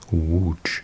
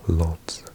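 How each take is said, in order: First: It begins with a W sound. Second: It begins with an L sound. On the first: The speaker calls it right. "this L with a little line through it is pronounced like a W" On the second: The speaker calls it wrong. "this is the most incorrectly pronounced, because people say Lodz"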